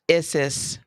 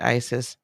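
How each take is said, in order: First: The name is said in a non-American way. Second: The name is said in an American way.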